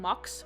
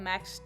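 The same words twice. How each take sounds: First: The name is said with a Dutch pronunciation. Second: The name is said with an English pronunciation. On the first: "which is the Dutch pronunciation of his name" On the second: "just for the purpose of this video because it is in English"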